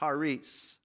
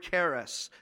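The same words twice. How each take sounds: First: It is pronounced with the Greek letter sounds. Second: It is pronounced the common English way. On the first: "It's really properly pronounced charis because there's some letters that sound different in the Greek" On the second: "That's how we pronounce it"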